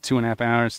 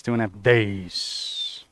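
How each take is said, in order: First: Said in the usual way. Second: "two and a half days" dragged slow and low; slow, low drawn-out correction. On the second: Shown as a demonstration. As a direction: stretch "days" out slowly, deadpan.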